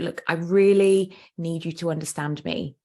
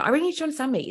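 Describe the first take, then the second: First: It is said in a calm, natural way. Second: It is said in an angry way.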